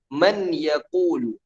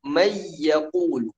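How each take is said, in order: First: The n sound is clearly pronounced before y. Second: The n sound merges into the following y. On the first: The speaker calls it wrong. "Kita nggak mungkin membaca man yaqulu" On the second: The speaker calls it right. "tapi kita baca may yaqulu. Seakan-akan nunnya tidak terbaca"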